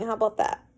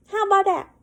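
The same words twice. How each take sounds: First: Said in the usual way. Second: Pitched well up, mocking the line; mock high retake. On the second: Shown as a demonstration. Reader mocking the fanfic line, pitched high. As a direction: squeak it back sarcastically.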